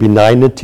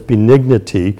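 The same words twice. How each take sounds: First: The middle vowel sounds as in 'benign'. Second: The middle vowel differs from that in 'benign'. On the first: The speaker calls it wrong. "we use the word benign, and so I said benignity" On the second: The speaker calls it right. "It's benignity"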